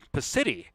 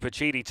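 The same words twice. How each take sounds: First: The name has an anglicized English pronunciation. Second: The name has an Italian-style pronunciation.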